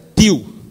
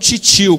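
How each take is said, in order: First: The t is a plain, dry stop. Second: The t sounds like a 'ch' sound. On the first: This is how Northeasterners say it. "esse T seco" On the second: This is the speaker's own regional way of saying it. "como eu falo"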